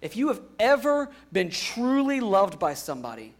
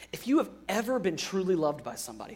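First: "ever" stressed, louder and higher; emphatic restatement. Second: Rushed first pass, a bit soft; quick and quiet. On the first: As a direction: lean hard on "ever" to drive it home. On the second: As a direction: toss it off quickly before restating. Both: Shown as a demonstration. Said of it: "think about this for a second".

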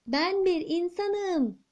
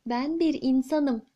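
First: Higher, slow shout with bir stressed; boy shouting so the giant queen hears, a touch higher. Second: Said in the usual way. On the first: Acted. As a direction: shout it up to a giant who can't hear. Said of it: "diye bağırmış bu sefer". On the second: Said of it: "kraliçe onu duymamış".

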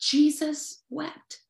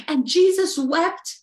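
First: Softer, slow Jesus wept; quietly savoured verse; hushed and slow. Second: Said in the usual way. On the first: Shown as a demonstration. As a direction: let it land gently and slowly. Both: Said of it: "John eleven thirty-five says it".

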